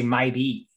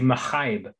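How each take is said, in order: First: The name is said without an h sound. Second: The name is said with an aspirated h. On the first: This is how one series says the name. "Book of the Fallen they say my be" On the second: This is how the other series says the name. "really aspirate the H"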